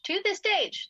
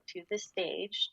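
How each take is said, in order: First: The stage said higher and louder; firm emphasis on the stage, higher and louder; emphatic correction. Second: Said in the usual way. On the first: Real, not acted. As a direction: punch the stage to correct yourself. Restates to emphasize.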